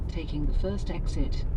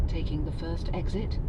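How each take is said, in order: The two takes are said the same way.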